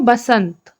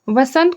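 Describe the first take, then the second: First: It starts with a b sound. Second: It starts with a v sound. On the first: This is the Chhattisgarhi form. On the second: This is the standard Hindi form.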